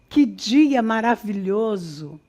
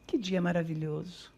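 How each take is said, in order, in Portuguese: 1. É dita com emoção viva e intensa. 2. É dita de forma monótona, sem emoção. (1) "tem que estar carregado de emoção" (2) "É diferente de eu dizer"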